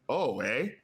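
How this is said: It is said in a Canadian accent.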